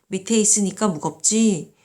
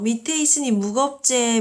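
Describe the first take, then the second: First: It is said in standard Korean. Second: It is said in regional dialect. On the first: It feels less close and less vivid. "표준어로 한번 바꾸면" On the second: It feels close, friendly and vivid. "지역 방언"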